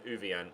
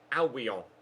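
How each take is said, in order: First: The name begins with an 'oo' sound. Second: The name begins with an 'al' sound. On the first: The speaker calls it wrong. "rather than Uvian, as I was previously calling him" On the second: The speaker calls it right. "apparently their midfielder is uh, pronounced Albion"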